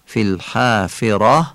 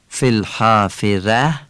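First: الحافره with clear i and heavy final "rah"; eloquent Arabic. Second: الحافره ending in a light Persian "ræ"; Persian pronunciation. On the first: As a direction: say الحافره with Arabic "fi" and a full, dark r. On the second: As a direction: say الحافره with a thin final "ra", Persian style. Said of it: "این فارسیه". (تلفظ فارسیِ الحافره با رِ نازک) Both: Shown as a demonstration.

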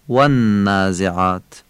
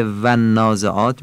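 First: "والنازعات" as "wannaazeaat", lips off the teeth; Arabic W. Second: "والنازعات" as Persian "vannaazeaat". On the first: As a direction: begin والنازعات with relaxed two-lip "w". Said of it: "از بین دو لب ادا". («والنازعات» با واوِ عربی) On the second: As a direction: begin والنازعات with lip-on-teeth "v". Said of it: "به جای والنازعات". («والنازعات» با واوِ فارسی) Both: Shown as a demonstration.

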